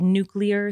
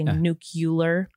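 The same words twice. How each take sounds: First: The word is said the way it is spelled. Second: The word is said differently from its spelling. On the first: The speaker calls it right. "it's spelled nuclear" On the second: The speaker calls it wrong. "so you shouldn't say nuclear"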